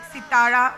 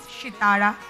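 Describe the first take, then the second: First: The word begins with an s sound. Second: The word begins with an sh sound. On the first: The speaker calls it right. "Like sitara" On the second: The speaker calls it wrong. "we don't say shitara"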